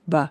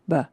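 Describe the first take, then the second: Both takes have the same delivery.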